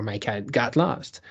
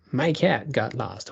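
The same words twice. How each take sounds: First: Lost punched at the end, cat left light; stress on lost. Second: Cat lifted and leaned on, the rest light; stress on cat. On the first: Lecturer contrasting for students, stress on lost. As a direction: land the weight on lost in "My cat got lost". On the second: Lecturer showing students stress on cat. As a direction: hit the word cat in "My cat got lost". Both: Shown as a demonstration. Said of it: "putting the emphasis on the different part".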